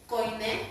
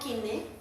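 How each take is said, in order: First: The first syllable sounds like 'koi'. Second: The first syllable sounds like 'ki'.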